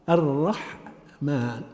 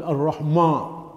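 First: "الرحمن" slowly split, "ar-rah ... maan", heavy r then thin h; light ha. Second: "الرحمة" with dark backed end, "ar-rahmo"; heavy mim. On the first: Teacher modelling syllables, heavy ra and light ha. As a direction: pause inside "الرحمن" after a light ha. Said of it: "وترقيق الحاء". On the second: Teacher imitating some people, mim made heavy. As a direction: thicken the m syllable of "الرحمة" into "mo". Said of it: "يضخم الميم". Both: Shown as a demonstration.

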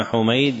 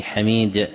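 First: حميد said Humayd, u then ay; diminutive Humayd. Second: حميد said Hamiid, short a then long ii; non-diminutive Hamid. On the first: Teacher explaining a narrator's name to students, حميد as Humayd. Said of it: "يأتي مصغرا". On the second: Teacher showing the form that never occurs, حميد as Hamiid. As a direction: say حميد with an open first vowel, ha-MEED. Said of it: "ولم يأتي". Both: Shown as a demonstration.

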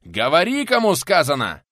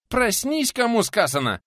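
First: Loud, raised, insistent roar; furious shouted order; enraged yell. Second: Very high, loud command; high, strained urgent yell; urgent wake-up shout. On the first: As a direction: demand an answer at full voice. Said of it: "в лицо буквально проорал пенсионер". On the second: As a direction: shout to jolt someone awake. Guest shouting to wake his attacker. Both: A narrator's reading.

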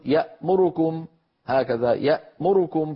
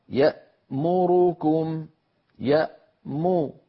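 First: "يأمركم" with the ra vowel clipped, yamurkum; wrong, snatched vowel. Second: "يأمركم" slow with three equal dammas, ya-mu-ru-kum; correct, even vowels. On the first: Teacher imitates a reader snatching the vowel. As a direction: rush the ra in "يأمركم" so it nearly drops. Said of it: "فيقول... هكذا". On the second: Teacher models even vowel timing. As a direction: give each vowel of "يأمركم" the same length. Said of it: "على القارئ أن يسوي بين أزمنتها". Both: Shown as a demonstration.

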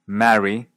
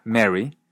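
First: "Marry" with an open a; unmerged vowel. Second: "Mary" for marry, said with short e; Canadian merger. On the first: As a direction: say "Marry" with the a of "cat". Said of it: "Va de nuevo". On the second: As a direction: turn the a into e: "Mary" like merry. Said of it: "se pronuncia". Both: Shown as a demonstration.

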